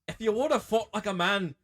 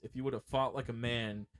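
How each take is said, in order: First: It is said in a put-on angry Celtic accent. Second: It is said in a plain everyday accent.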